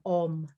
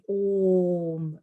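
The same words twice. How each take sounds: First: The Om is said with a hard sound. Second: The Om is said with a soft sound. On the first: The speaker calls it wrong. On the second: The speaker calls it right.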